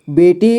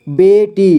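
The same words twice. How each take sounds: First: Said in the usual way. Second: बेटी split as बे, टी; syllable by syllable. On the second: Shown as a demonstration. Teacher showing learners बेटी, sounded out in parts. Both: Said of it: "तो इसे पढ़ेंगे".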